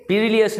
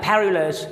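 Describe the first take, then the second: First: پیریلیس with long ee and extra syllable; wrong take پیریلیس, pi-ri-li-es; wrong pronunciation. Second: پیریلس short, pe-ri-les; correct pronunciation. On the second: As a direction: correct take پیریلس, three syllables. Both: Shown as a demonstration. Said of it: "پیریلیس نہیں کہنا".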